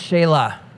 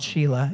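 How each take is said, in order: First: The name sounds like Shelah, unlike Sheila. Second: The name sounds like the woman's name Sheila. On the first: The speaker calls it right. "the pronunciation is Shelah" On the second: The speaker calls it wrong. "no man wants to be called Sheila, even though it looks like Sheila"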